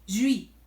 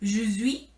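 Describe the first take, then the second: First: The E is dropped, giving one syllable. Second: The E of je is sounded.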